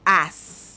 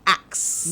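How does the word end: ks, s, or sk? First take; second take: s; ks. First: The word ends with an s only. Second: The word ends with a k then s. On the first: "Or ass" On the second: "And people say axe"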